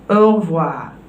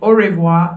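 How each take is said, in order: First: It is said with native French pronunciation. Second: It is said the way many learners say it. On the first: The speaker calls it right. "learn au revoir" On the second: The speaker calls it wrong. "we don't say au revoir like many would say"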